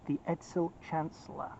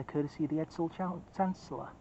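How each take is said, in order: First: Said in the usual way. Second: Words slurred without teeth in; fumbling the name, dentures out; loose dentures. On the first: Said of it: "I'll try that one again". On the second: Real, not acted. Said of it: "let me put my teeth in".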